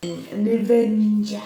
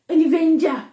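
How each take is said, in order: First: Slow mock echo. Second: An Avenger, higher and louder, hammed up; mock grand An Avenger; mock dramatic exclaim. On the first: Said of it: "in her wake ... became an Avenger". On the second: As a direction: announce An Avenger with mock awe. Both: Shown as a demonstration.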